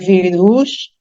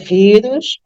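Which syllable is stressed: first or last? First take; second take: last; first. First: The stress is on the last syllable. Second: The stress is on the first syllable. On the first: The speaker calls it wrong. "não é vírus" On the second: The speaker calls it right. "a sílaba tônica é no vi"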